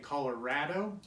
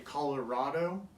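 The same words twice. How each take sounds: First: It is said in the local Colorado way. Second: It is said the way outsiders say it. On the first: This is how locals say it. "but we say Colorado" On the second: This is how people elsewhere say it. "I know people say Colorado"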